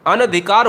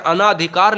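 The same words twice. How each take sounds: First: "अनधिकार" with a short a after न; शुद्ध रूप अनधिकार. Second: "अनाधिकार" with a long आ after न; गलत रूप अनाधिकार. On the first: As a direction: say "अनधिकार", keeping न short before धि. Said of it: "शुद्ध शब्द हमेशा अनधिकार". ("अनधिकार" में न पर छोटा अ) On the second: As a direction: say "अनाधिकार", stretching ना in the second syllable. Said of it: "गलत लिखा करते हैं". ("अनाधिकार" में न के बाद लंबा आ) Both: Shown as a demonstration.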